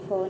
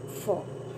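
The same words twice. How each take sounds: First: It is a plain aspirated ph sound. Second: It is an f sound with friction. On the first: The speaker calls it wrong. "ये simple ज या फ नहीं है" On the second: The speaker calls it right. "इस तरह से इसको बोलते हैं।"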